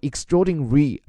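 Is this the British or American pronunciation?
British. It is said in a British accent, syllables reduced.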